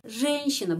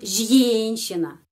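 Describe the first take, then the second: First: The first vowel is a plain 'e' sound. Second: The first vowel is a 'ye' sound. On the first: The speaker calls it right. "pengucapannya E" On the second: The speaker calls it wrong.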